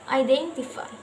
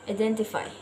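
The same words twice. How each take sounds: First: The first vowel glides as a diphthong. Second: The first vowel is a plain single vowel. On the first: The speaker calls it right. "this word should be pronounced identify" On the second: The speaker calls it wrong. "the learners tend to pronounce it as identify"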